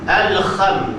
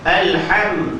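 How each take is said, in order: First: The middle consonant is a rough scraping kh. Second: The middle consonant is a soft breathy h. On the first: The speaker calls it wrong. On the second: The speaker calls it right.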